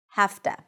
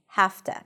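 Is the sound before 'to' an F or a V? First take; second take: F; F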